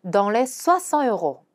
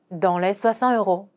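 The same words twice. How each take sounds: First: Slow French, "soixante" stressed; careful teaching read; slow demo pronunciation. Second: Slow careful French; slow model sentence; slow repeat. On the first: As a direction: model slowly. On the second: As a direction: repeat slowly. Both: Shown as a demonstration. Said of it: "이런 식으로 말하는 거죠".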